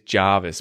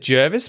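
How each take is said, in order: First: The first vowel sounds like 'ar' in 'car'. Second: The first vowel sounds like 'er' in 'her'. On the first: The speaker calls it right. "I heard recently that it is Jervis, but it's the weirdest R spelling" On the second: The speaker calls it wrong. "I would have said Jervis"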